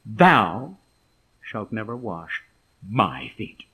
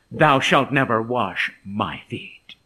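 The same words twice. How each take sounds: First: "Thou" set apart strongly, rest dropped low; emphatic. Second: Slow, low, firm refusal; self-assertive. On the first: Shown as a demonstration. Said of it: "the emphasis is seen in the Greek". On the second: Acted. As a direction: refuse firmly, word by word. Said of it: "notice Peter's self-assertiveness".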